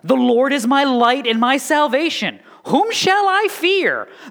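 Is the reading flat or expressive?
expressive. It is read with emotion, the question sounding questioning.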